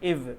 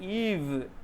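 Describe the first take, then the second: First: The vowel is a short i. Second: The vowel is a long ee. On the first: The speaker calls it wrong. "जो non native English speaker होता है उसको वो कैसे produce करते हैं sound?" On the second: The speaker calls it right. "इसको हम ईव पढ़ते हैं"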